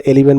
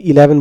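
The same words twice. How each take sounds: First: এলিভেন said with an ee sound in the middle, e-LEE-ven; Bangla-style eleven. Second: Said in the usual way. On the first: Shown as a demonstration. Teacher showing a common mispronunciation, e-lee-ven. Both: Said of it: "ইলেভেনকে এলিভেন বলো".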